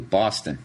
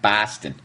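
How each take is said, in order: First: The first vowel is a broad 'aw' sound. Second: The first vowel is not an 'aw' sound. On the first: The speaker calls it right. "properly say Boston. B A W" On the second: The speaker calls it wrong. "not Boston"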